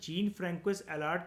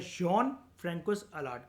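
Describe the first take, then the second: First: The first name is said as 'jeen'. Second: The first name is said as 'zhon'. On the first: "जीन" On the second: "European countries के अंदर जॉन"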